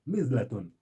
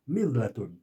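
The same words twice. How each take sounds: The two takes are said the same way.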